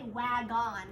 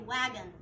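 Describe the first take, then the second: First: The second syllable has a full 'on' vowel. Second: The second syllable has a lazy, reduced vowel. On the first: The speaker calls it wrong. "We don't say wagon" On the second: The speaker calls it right. "we say wagon. We make kind of this lazy um, sound"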